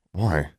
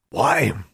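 First: Said in the usual way. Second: Higher-pitched gruff echo; indignant, raised-pitch "Why?"; repeated incredulously. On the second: A narrator's reading. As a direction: throw the question back as a gruff shopkeeper. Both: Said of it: "the proprietor repeated".

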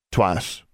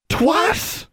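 First: Said in the usual way. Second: Very high incredulous question; high, rising shocked echo. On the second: A narrator's reading. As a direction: squeal it back in disbelief. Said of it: "Constance and Forbearance said together".

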